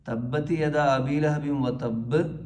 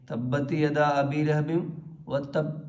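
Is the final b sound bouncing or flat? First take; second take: bouncing; flat. First: The final b is heavy with an echoing bounce. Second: The final b stops flat without a bounce. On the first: The speaker calls it right. "കനപ്പിച്ച് ഉച്ചരിക്കണം" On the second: The speaker calls it wrong. "എന്ന് പറഞ്ഞാൽ പോരാ"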